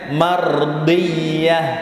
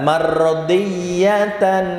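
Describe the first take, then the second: First: The word ends cut short in a pausal form. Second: The word ends with its full ending.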